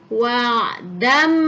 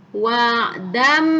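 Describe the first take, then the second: Both takes have the same delivery.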